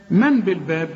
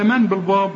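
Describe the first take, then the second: First: من بالباب with a thin, fronted a; light ba. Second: من بالباب with a dark, backed a; heavy ba. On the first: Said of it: "ولا من بالباب؟". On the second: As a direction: thicken the ب of بالباب, as a question. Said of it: "ولا من". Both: Shown as a demonstration.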